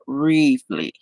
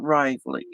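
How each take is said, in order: First: The first syllable is said with an 'ee' sound. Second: The first syllable is said with an 'i' sound. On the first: The speaker calls it right. "It's Reevely with an E, not an I" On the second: The speaker calls it wrong. "It is not Rively"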